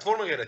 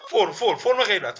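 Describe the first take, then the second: First: Said in the usual way. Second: Laughing, higher and louder, repeating the word. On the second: Real, not acted. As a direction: giggle through the repeated فرم. Laughing while naming the pose.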